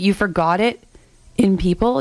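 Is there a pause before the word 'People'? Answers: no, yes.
yes. There is a pause before the word 'People'.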